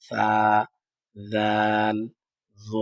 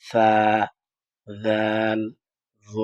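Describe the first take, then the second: The two takes are said the same way.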